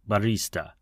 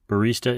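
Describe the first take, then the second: First: It is said the Italian way, with a long middle vowel. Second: It is said with an American pronunciation. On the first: "the Italian pronunciation drags the E sound in the middle" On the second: "Barista is a common pronunciation in the United States and Italy"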